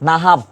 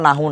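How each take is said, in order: First: The word ends with a v sound. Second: The word ends with a vowel u sound. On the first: The speaker calls it right. "শব্দটা হচ্ছে নাহাব" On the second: The speaker calls it wrong. "এটা শব্দটা নাহু না"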